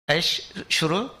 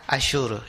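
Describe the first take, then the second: First: The two syllables are said apart with a break. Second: The two syllables run together without a break. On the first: "원래 두 음절로 되어 있어요" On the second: "연음하면 이렇게 쭉 같이 읽어가잖아요"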